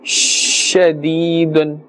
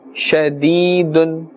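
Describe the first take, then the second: First: The sh sound is drawn out long. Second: The sh sound is short and normal. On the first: The speaker calls it wrong. "be careful not to stretch the sound of this letter" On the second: The speaker calls it right. "In the normal manner"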